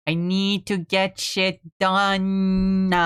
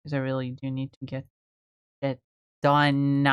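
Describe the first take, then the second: First: Slow, each word in "I need to get shit done" pressed, stress on "get"; slow emphatic repeat. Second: Said in the usual way. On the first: Real, not acted.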